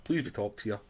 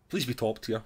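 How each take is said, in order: The two takes are said the same way.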